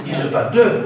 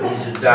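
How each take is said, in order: First: Said in the usual way. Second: "da" said with an open a instead of "de"; "da" à la marseillaise, voyelle ouverte; Marseille "da" for "de". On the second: Shown as a demonstration. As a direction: give "da" the broad southern a, not the neutral "de".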